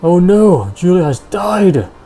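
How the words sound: It sounds upset, said loudly.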